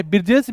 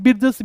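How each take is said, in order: First: बिरजेश with a long e and a closing sh; बिरजेश ending in sh; Birjesh variant. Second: बिरजस with a short a and a closing s; बिरजस ending in s; Birjas variant. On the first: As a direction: say बिरजेश as bir-jesh. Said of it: "बिरजेश भी बोलते हैं". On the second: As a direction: say बिरजस as bir-jas. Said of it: "बिरजस भी बोलते हैं". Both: Shown as a demonstration.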